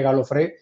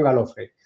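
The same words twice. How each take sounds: First: Galofré with the accent on the last syllable; stress on final E. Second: Galofre stressed on the middle syllable, ga-LO-fre; unaccented final E. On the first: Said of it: "con acento en la E". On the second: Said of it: "en lugar de con acento en la E". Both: Shown as a demonstration.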